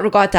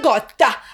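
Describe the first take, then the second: First: Ricotta is said with a regional New Jersey pronunciation. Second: Ricotta is said with an exaggerated Italian-style pronunciation. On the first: It is how the speaker normally says it. The speaker calls it right. "but I call it ricotta" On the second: It imitates a showy celebrity-chef pronunciation. The speaker calls it wrong. "Not in the Giada way of like a ricotta"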